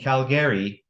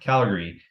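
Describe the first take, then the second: First: The second A is pronounced as a full syllable. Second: The second A is dropped, leaving two syllables. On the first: The speaker calls it wrong. "you're probably going to catch me saying Calgary" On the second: The speaker calls it right. "You don't pronounce that second A"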